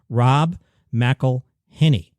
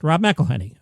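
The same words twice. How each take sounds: First: The name is said slowly and carefully. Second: The name is said quickly in one go. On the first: "let's put the whole thing together" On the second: "Now say it fast"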